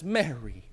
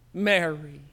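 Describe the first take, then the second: First: Soft, low, almost pleading call of her name. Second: Said in the usual way. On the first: A narrator's reading. Jesus softly pleading as he calls Mary. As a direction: gently beg her to turn and see you. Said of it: "in a voice almost pleading". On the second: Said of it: "He says her name".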